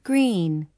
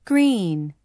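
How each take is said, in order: Both takes have the same delivery.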